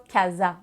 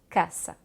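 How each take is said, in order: First: The middle consonant is a buzzing z sound. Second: The middle consonant is a hissing s sound. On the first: The speaker calls it wrong. "le mot casa se dira pas casa" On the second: The speaker calls it right. "ça va toujours être s"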